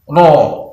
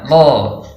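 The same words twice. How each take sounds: First: The syllable is said with rounded, pushed-out lips. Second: The syllable is said without rounding the lips. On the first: The speaker calls it wrong. "tidak boleh diucapkan dengan monyong" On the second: The speaker calls it right. "Yang benar Ro"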